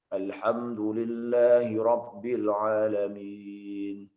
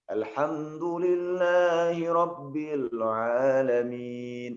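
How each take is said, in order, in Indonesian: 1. Dibaca hampir datar, dengan sedikit nada. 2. Dibaca dengan nada yang jelas dan mengalir. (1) "tidak ada nadanya, gitu kan? Nadanya hanya sedikit aja" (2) "kalau misalnya kita mengikat dengan nada tertentu"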